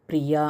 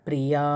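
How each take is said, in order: The two takes are said the same way.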